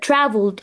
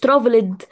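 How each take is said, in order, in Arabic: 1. اللاحقة دال عادية بدون أي حرف علة. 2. تحتوي اللاحقة على حرف علة إضافي قبل الدال. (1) "traveled على طول" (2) "مش traveled، مفيش كده"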